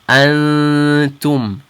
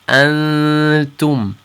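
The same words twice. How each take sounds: The two takes are said the same way.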